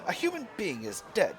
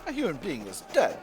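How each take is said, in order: First: It is spoken in a put-on British accent. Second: It is spoken in a plain, everyday accent.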